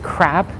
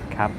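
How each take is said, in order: First: The word is said with an R sound. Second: The word is said without an R sound. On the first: "like K R A P" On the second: "sometimes they just don't say the R"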